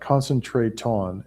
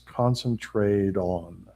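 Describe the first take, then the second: First: The T is pronounced as a clear T sound. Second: The T is pronounced like a soft D sound. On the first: The speaker calls it wrong. "not concentrate on" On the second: The speaker calls it right. "the T sounds like a D"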